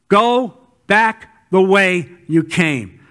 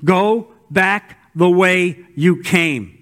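First: Slower and firmer on the echo; slow repeat. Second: Measured, slow command; slow, deliberate. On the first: Preacher repeating God's command to the congregation, slow emphatic echo. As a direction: drive it home slowly. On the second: God sending Elijah back, slow and deliberate. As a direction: give each word weight. Reading God's words slowly. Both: Acted.

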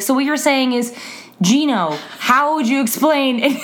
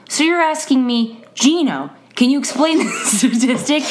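First: Lightly mimicked student framing it back; a touch of earnest stalling; imitating Gino. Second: Lightly mimicked student repeating the question with a laugh; a hint of the earnest student stalling; imitating Gino. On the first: Teacher mimicking her student turning a question back, light. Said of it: "he would just frame it back to himself with his first name". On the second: Teacher imitating her student restating a question, light mimicry. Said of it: "he would say his name and then repeat the question".

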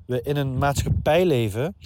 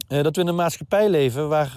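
First: Talking through a head cold; blocked nose from a real cold; stuffy nose. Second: Said in the usual way. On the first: Real, not acted. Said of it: "ik ben een beetje verkouden hier". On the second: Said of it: "Sorry, ik ben een beetje verkouden hier".

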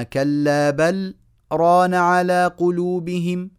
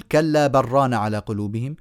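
First: Slow, higher chant, clear "بل", pause, then "ران"; "بل" and "ران" separated, vowels held long; sakt after بل. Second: "بل ران" run together as "بر ران"; no pause, "بل" assimilated into "ران"; merged without sakt. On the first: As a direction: stop briefly after "بل", then draw out "ران". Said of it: "وإنما". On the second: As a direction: swallow the l of "بل" into a doubled r on "ران". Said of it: "لا نقول". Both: Shown as a demonstration.

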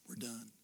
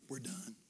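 Both takes have the same delivery.

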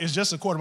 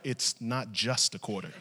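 First: Said in the usual way. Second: Low, softer, measured rebuttal; firm correction. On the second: Retold or imitated. Wife correcting husband about the quarter, firm and low. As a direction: imitate a wife quietly insisting.

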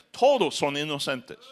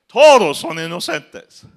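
First: Said in the usual way. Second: TODOS stressed, louder and higher, slow; mocking emphasis. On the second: Shown as a demonstration. Preacher mocks the prisoners, stressing TODOS son inocentes. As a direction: land TODOS hard in ironic disbelief.

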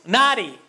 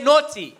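First: Naughty with an American flapped "nah-dee"; American accent. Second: Said in the usual way. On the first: Shown as a demonstration. Speaker mimics Americans to his audience, American accent. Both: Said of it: "That's my American accent".

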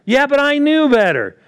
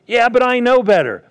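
First: High, loud protesting excuse; mock excuse. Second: High, louder whiny excuse voice; mock excuse. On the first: Preacher mimicking a believer's excuse, pitched higher and louder. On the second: Preacher mimicking a believer's excuse, high and whiny. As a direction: play the self-justifying believer. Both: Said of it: "voicing a believer's excuse".

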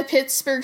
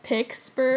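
First: Said in the usual way. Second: "Pittsburgh" slowly said as "Picksburgh"; mispronunciation shown. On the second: Shown as a demonstration. Co-host repeating the slip, "Pittsburgh" slowly as "Picksburgh". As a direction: stretch out "Pittsburgh" with a k in place of the t. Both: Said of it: "I accidentally said Pittsburgh".

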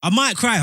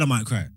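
First: Raised, louder mock-emotional whine; mock tearful. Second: Said in the usual way. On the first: Teasing his co-host that he might cry, hammed up. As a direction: play up being close to tears. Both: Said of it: "You gonna cry?".

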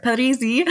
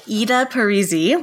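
First: Parisi in a put-on Italian accent, higher pitched; attempted Italian pronunciation of Parisi. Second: Said in the usual way. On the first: Shown as a demonstration. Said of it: "say it with the Italian accent". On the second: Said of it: "I always mispronounce".

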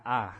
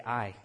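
First: "ah." as a flat, open Southern vowel for I. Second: "I" with a full glide, eye-ee; standard I. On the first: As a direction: drop the glide, just "ah.". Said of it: "and not". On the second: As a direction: say "I" as a clear two-part vowel. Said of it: "I say". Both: Shown as a demonstration.

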